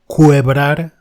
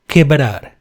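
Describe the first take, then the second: First: The u after the q is pronounced. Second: The u after the q is silent. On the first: The speaker calls it wrong. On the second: The speaker calls it right.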